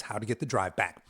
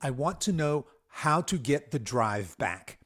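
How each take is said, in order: First: Said in the usual way. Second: Slow and weighty, every word of "how to get the drive back" pressed; deliberate capital-letter emphasis on "get the drive back"; all caps emphasis. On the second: Shown as a demonstration. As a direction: read it like it's shouted in capitals, but slowly. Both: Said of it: "So he's got that in all caps".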